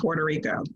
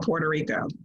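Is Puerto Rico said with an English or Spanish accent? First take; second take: English; English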